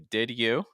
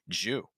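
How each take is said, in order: First: The d is released clearly before you. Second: Both words shrink into one syllable, jew. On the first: "with a firm D sound"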